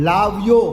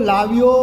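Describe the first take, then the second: Both takes have the same delivery.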